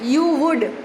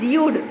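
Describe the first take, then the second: First: It is said as two separate full words. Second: It is said as one contracted syllable. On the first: "if it is you would" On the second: "then it is you'd"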